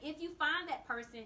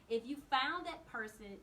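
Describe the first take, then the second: First: It is said at a normal, quick pace. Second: It is said slowly and deliberately.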